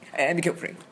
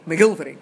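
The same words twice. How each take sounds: First: The name is pronounced the English way. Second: The name is pronounced the Scottish way. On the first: This is how the name is said in England. The speaker calls it wrong. "No, that's the English one" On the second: This is how the name is said in Scotland. The speaker calls it right. "That's better"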